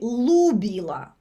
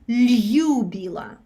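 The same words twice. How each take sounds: First: The L is hard, with no softening. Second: The soft L is followed by a y sound. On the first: "L without the apostrophe it would be" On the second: "if we had a yod, it would sound"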